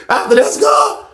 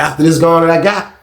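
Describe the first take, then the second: First: High, strained comic promise; hammed-up promise. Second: Said in the usual way. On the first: Husband bargaining with his wife, high and hammed-up. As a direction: squeeze it out high after a laugh. Repeats promise after laughing, exaggerated.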